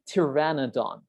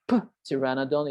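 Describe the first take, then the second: First: The P at the start is silent. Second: The P at the start is pronounced. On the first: The speaker calls it right. "it's a silent P. We say pteranodon" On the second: The speaker calls it wrong. "You don't say P pteranodon"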